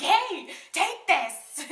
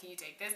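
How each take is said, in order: First: High, loud, drawn-out shout; stretched-out, forceful yell; aggressive mock yell. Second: Said in the usual way. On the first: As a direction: holler it as if hurling something. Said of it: "threw it at him". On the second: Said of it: "I thought I just handed it".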